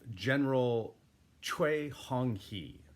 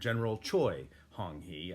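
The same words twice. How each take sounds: First: The name is said with a Korean-like pronunciation. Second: The name is said with an English-like pronunciation. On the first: The speaker calls it right. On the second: The speaker calls it wrong.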